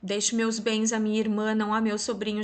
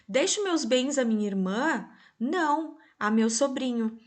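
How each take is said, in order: First: 'Irmã' sounds like a statement, with no break after 'não'. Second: 'Irmã' rises as a question, with a break after 'não'.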